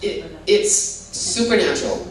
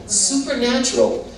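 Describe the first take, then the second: First: Said in the usual way. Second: "Supernatural" said higher and with weight; emphatic repeat. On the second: Shown as a demonstration. Grandmother testifying to the Lord, stressing supernatural. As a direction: hit "Supernatural" as a firm declaration. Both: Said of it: "I'd say miraculous".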